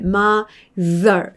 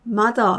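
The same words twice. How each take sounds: First: The middle consonant is a voiced 'th' sound. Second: The middle consonant sounds like a 'd'. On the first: The speaker calls it right. "이렇게 두 번째 소리가 나거든요" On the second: The speaker calls it wrong. "편하게 D처럼 소리를 많이들 내셨어요"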